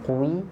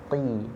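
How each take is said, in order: First: The syllable is said fully heavy and rounded. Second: The syllable is said only slightly heavy. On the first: The speaker calls it wrong. "Bukan qwi" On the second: The speaker calls it right. "tapi qi"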